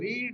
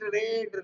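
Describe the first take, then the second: First: The vowel is long, like in seed. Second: The vowel is short, like in bed. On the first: It is the present form. "रीड का तीनों रीड ही होता है, लेकिन उच्चारण बोलते हैं अलग अलग" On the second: It is the past form. "उच्चारण इसको बोलते हैं रेड"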